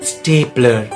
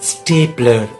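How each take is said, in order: Both takes have the same delivery.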